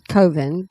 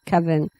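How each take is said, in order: First: The first vowel sounds like in 'cove'. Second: The first vowel sounds like in 'oven'. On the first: "I think it should be pronounced coven" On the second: "oven is spelled O V E N, so I can see how you could say coven"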